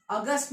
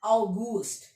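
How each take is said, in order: First: अगस्त said "uh-GUST", the Hindi-English way; अगस्त without the German "au" and "oo"; wrong English-style reading. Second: अगस्त said "ow-GOOST", with a long "oo"; corrected German pronunciation. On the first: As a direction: misread अगस्त with a short "uh" opening. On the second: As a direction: open अगस्त on "au" and stretch the "goost". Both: Shown as a demonstration. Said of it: "अगस्त नहीं".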